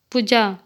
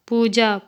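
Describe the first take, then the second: First: Short u in "पूजा", like "पुजा"; incorrect pronunciation. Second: Long oo in "पूजा"; correct pronunciation. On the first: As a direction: say "पूजा" wrongly with a brief first vowel. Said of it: "अशुद्ध शब्द". ("पूजा" का अशुद्ध उच्चारण, छोटा उ) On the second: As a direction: say "पूजा" with the first vowel held long. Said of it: "शुद्ध शब्द". ("पूजा" का शुद्ध उच्चारण, लंबा ऊ) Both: Shown as a demonstration.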